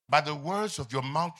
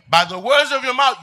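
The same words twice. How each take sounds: First: Said in the usual way. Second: Higher, louder repeat; emphatic preaching. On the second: Acted. Pastor driving the verse home to the church, louder. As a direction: hammer the line home.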